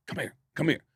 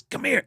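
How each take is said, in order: First: Soft, hushed beckoning; quiet, repeated imitation of a manager's summons; discreet summons. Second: High-pitched, insistent beckoning; raised, pressing come-over call; urgent summons. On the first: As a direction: call someone over without disturbing the show. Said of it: "goes like this to Chris". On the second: Retold or imitated. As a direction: imitate a manager urgently waving someone over. Tour manager waves the teller over.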